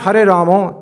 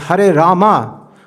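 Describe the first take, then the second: First: The last word ends with an 'o' vowel. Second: The last word ends with an 'a' vowel. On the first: The speaker calls it wrong. "It's not Hare Ramo" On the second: The speaker calls it right. "it's Hare Rama"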